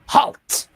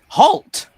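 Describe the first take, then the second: First: It is said in a put-on lizard voice. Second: It is said in a plain, normal voice.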